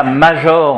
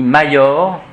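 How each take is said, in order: First: "major" with a French ZH sound for J. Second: "major" with J said as a Y glide; Latin I major. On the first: Teacher shows class the wrong Latin, French J. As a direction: say "major" as MA-JOR, J as in jour. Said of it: "On dit pas major en latin". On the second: Teacher gives class correct Latin, J as Y. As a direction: say "major" as MA-YOR, no ZH sound. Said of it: "on dit major". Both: Shown as a demonstration.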